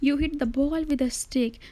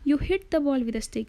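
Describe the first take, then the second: First: The stress is on "ball". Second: The stress is on "hit".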